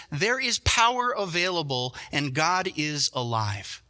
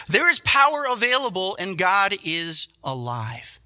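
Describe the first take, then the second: First: Slow, weighty proclamation; slow proclamation stressing power and God; slow declaration. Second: High, loud power then slow God is alive; loud, higher preaching of the truth; preached declaration. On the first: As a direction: let each word land, slowly. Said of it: "this is our first truth". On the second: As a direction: proclaim it with full force. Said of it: "get back into God's word". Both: Shown as a demonstration.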